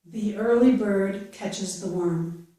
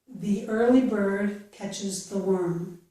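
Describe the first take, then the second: The two takes are said the same way.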